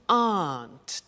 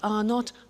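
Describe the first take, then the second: First: It is said as one contracted word. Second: It is said as two full words.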